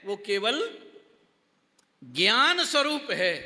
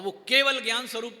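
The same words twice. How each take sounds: First: केवल left hanging, gap, then ज्ञान स्वरूप है; pause after केवल. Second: Said in the usual way. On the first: Shown as a demonstration. Teacher explaining the Lord's view, pause after केवल. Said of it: "थोड़ा सा gap डाल दो". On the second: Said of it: "मगर हम वो जोड़ जोड़ के".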